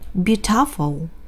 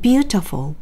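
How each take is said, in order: First: The stress is on the second syllable. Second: The stress is on the first syllable. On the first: The speaker calls it wrong. "만약에 두 번째 모음인 어에 붙잖아요" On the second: The speaker calls it right. "첫 번째 모음인 U의 강세가 찍혀 있어요 ... 세게 읽으면서 살짝 음도 높아요"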